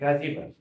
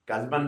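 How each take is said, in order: First: A short i vowel follows the z sound. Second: No vowel comes between the z and b. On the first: The speaker calls it right. "इधर क्या है" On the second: The speaker calls it wrong. "कज़बन नहीं"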